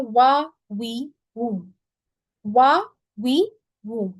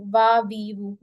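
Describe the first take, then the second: First: "वा, वी, वू" very slowly, lips staying rounded throughout; "वा वी वू" with round lips, no teeth on the lip; rounded lips for waw. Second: "वा, वी, वू" with the upper teeth on the lower lip, like fa; "वा वी वू" pronounced like fa, teeth touching the lip; wrong waw like fa. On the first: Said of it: "वाव में अब आप लोगों ने practice करनी है". ("वा, वी, वू" होंठ गोल रख के, धीरे धीरे सही वाव) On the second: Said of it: "वाव में लोग फा का मखरज यूज़ करके वाव को पढ़ते हैं". ("वा, वी, वू" फा की तरह दांत होंठ पर लगा के, गलत वाव) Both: Shown as a demonstration.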